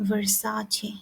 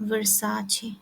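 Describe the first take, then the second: Both takes have the same delivery.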